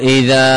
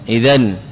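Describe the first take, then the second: First: The word ends in a long a vowel. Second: The word ends in an n sound. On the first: The speaker calls it right. "فتقول إذا، إذا وقفت عليها إذا" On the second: The speaker calls it wrong. "ولا تقول إذن"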